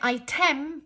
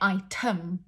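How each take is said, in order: First: The second vowel is a full vowel. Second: The second vowel is a reduced uh sound. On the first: The speaker calls it wrong. "we don't say item" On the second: The speaker calls it right. "we say item, uh"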